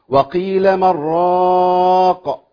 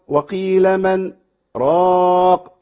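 First: 'Man' runs straight into 'raq' without a break. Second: A brief silent break comes between 'man' and 'raq'. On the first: "اللي هيقرأها بدون سكت" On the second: "انا هقرأها"

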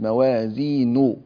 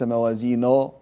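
First: The i vowel is said fully and clearly. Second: The i vowel is weakened and not fully formed. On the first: The speaker calls it right. "انتبه إلى ... الكسر الكامل" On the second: The speaker calls it wrong. "وليس موازينه"

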